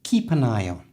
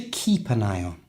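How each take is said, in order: First: The words run together like one word. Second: The same.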